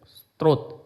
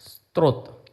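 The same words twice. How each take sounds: The two takes are said the same way.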